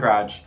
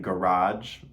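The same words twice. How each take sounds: First: The first vowel is almost dropped before the r. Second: The first vowel is said fully and clearly. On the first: This is how people from Michigan say it. "you hear the faintest little A, but it mostly goes right into R" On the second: This is how people outside Michigan say it. "We don't do that first A"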